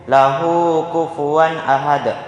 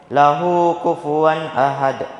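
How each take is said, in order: No difference in how they are said.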